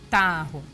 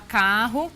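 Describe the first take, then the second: First: The word starts with a t sound. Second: The word starts with a k sound. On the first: The speaker calls it wrong. "ela pode estar falando tarro" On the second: The speaker calls it right. "Ao invés de ela falar carro"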